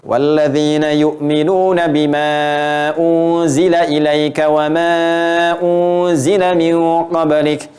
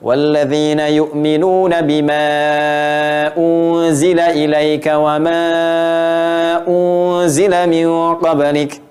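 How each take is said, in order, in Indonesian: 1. Huruf mad dibaca sekitar dua detik. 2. Huruf mad dibaca sekitar tiga detik. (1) "Empat harokat dua detik" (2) "Enam harokat tiga detik"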